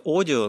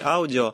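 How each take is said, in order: First: The word is said with an English pronunciation. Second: The word is said with a Russian pronunciation. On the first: "по-английски, конечно, произносится audio" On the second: "по-русски я не буду говорить audio, я буду говорить аудио"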